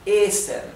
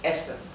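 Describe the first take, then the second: First: The first vowel is long. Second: The first vowel is short. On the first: "hace que la vocal anterior se pronuncie larga" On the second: "La primera E es bien corta"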